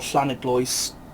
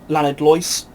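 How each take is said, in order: First: The name is said with a Welsh-style pronunciation. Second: The name is said with an English-style pronunciation.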